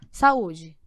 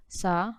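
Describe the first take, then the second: First: Said in the usual way. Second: "Sa-u-de" said slowly, syllable by syllable; split into syllables. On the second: Shown as a demonstration. Teacher showing the class the syllables of "Sa-u-de". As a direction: separate "Sa-u-de" into three syllables.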